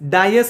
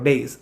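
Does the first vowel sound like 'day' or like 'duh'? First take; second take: duh; day. First: The first vowel is a short 'uh' sound. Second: The first vowel is a long 'ay' sound. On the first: The speaker calls it wrong. "ഡയസ് എന്നാണ് എല്ലാവരും പറയാറുള്ളത്" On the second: The speaker calls it right. "Correct ഉച്ചാരണം ഡേയ്സ് ആണ്"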